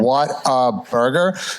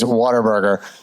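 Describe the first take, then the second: First: The name is said slowly, words kept apart. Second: The name is said quickly, run together.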